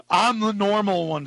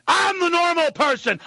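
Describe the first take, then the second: First: Said in the usual way. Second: Insistent angry shout. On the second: Real, not acted. Host insisting to listeners he is normal, angry shout.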